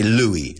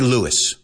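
First: The name is said with a French-style pronunciation. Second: The name is said with an English-style pronunciation. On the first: The speaker calls it right. "like the French pronunciation" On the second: The speaker calls it wrong. "we don't say Louis"

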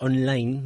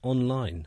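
First: It is said with a Spanish accent. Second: It is said with an English accent.

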